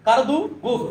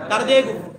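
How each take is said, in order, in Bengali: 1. শব্দ দুটি একটি o স্বরধ্বনি দিয়ে যুক্ত। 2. শব্দ দুটি একটি e স্বরধ্বনি দিয়ে যুক্ত। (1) "ওয়াওটা আছে কারদু গুফ" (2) "ওয়াওটাকে বিলুপ্ত করে ওয়াওয়ের স্থানে হে রাখে"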